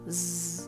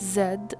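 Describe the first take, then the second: First: It is said as a bare buzzing consonant. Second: It is said as the full letter name. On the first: This is the sound the letter makes in words. "ولكن الساوند بتاعه Z" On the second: This is what the letter is called. "هو اسمه Z"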